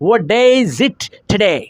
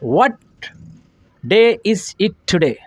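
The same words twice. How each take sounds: First: It is said fast. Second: It is said slowly.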